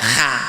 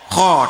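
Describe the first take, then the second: First: The vowel sounds like a light 'a'. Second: The vowel sounds like a heavy 'o'. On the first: The speaker calls it wrong. "tidak kha" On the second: The speaker calls it right. "kalau fathah jadinya o"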